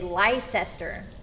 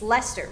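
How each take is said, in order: First: The name is said the American way. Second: The name is said a non-American way. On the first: The speaker calls it wrong. "the American wolf in me wants to say Leicester, but that's not right" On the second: The speaker calls it right. "It's Leicester, right?"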